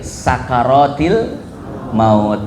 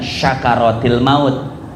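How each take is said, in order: First: The first word begins with an s sound. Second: The first word begins with an sh sound. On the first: The stupor of the death process. The speaker calls it right. "Yang betul adalah pakai sin kecil" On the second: The gratitude of death. The speaker calls it wrong. "bukan syakaratil maut"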